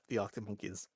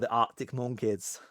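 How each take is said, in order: First: It is said in the speaker's ordinary accent. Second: It is said in a Birmingham accent.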